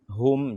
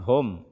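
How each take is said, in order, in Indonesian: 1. Vokal ini diucapkan dengan bibir membulat dan dimonyongkan. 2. Vokal ini diucapkan tanpa bibir membulat. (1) "dengan memonyongkan kedua bibir" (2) "jangan dibaca"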